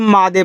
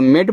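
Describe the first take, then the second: First: It is said as two syllables, maa-day. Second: It is said as one syllable, mayd. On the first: The speaker calls it wrong. "जिनको नहीं पता इसको मादे पढ़ देंगे" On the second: The speaker calls it right. "जिनको अब rules मालूम हो गया तो इसको मेड पढ़ेंगे"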